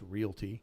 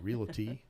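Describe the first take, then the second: First: It is said with two syllables, no extra vowel. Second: An extra vowel is added, giving three syllables. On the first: The speaker calls it right. "It's realty" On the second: The speaker calls it wrong. "people want to put an A in that too"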